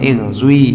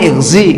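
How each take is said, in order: First: The vowel after z is rounded toward u. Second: The vowel after z is a pure i. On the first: "ada suara dhammahnya" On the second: "yang murni ighzi, enggak ada wawunya"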